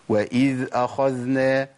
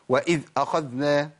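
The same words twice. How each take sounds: First: The dhal flows on softly and smoothly. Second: The dhal is cut off abruptly and harshly. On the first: The speaker calls it right. "بالراحة خالص... بيجري في الصوت" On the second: The speaker calls it wrong. "أقطع الصوت"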